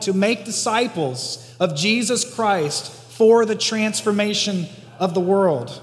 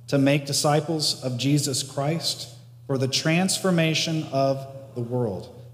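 First: It is said grandly, like a great calling. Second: It is said in a plain, ordinary way.

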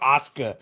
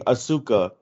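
First: It is said with a Japanese-style reading. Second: It is said with an English-style reading. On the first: The speaker calls it right. "but it's pronounced Asuka" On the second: The speaker calls it wrong. "I would always remember reading Asuka"

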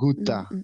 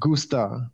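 First: The s sound is left out. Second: The s sound is clearly pronounced.

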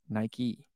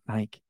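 First: Two syllables, ending in an ee sound. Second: One syllable, rhyming with bike. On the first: The speaker calls it right. "It's Nike" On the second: The speaker calls it wrong. "it's not Nike"

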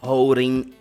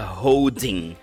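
First: The D and G sounds are dropped. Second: The D and G sounds are fully pronounced. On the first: The speaker calls it right. "E você não fala a letra G que tem nessa palavra" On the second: The speaker calls it wrong. "Só que você não fala holding"

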